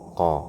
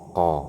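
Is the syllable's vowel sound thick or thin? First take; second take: thick; thick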